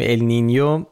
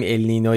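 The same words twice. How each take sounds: First: «النینیو» with a y-glide before the final o; تلفظ درست النینیو. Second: «النینو» with a plain n before the final o; تلفظ رایج النینو. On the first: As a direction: say «النینیو», ending in a clear "nyo". («النینیو» با «ی» روشن پیش از «و») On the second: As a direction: say «النینو» without a y-glide. («النینو» به شکل رایج فارسی، بدون «ی» پیش از «و») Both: Shown as a demonstration.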